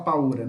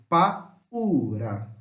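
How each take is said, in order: First: "paura" quickly joined, au as one syllable; vowels run together. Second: "Paura" drawn out with a gap after pa; separated hiatus. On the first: Teacher showing how not to say it, joined vowels. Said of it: "Não fala-se junto". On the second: Teacher correcting the joined version, separated vowels. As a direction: say "Paura" as two parts, pa, then a long ura. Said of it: "Eu falei pausadamente". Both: Shown as a demonstration.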